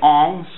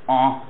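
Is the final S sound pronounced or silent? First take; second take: pronounced; silent. First: The word ends with an audible S sound. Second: The word ends without any S sound. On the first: This is how it was said in medieval times. "they were saying ongs" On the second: This is how it is said today. "modern French has kind of dropped the S sound. It's just en now"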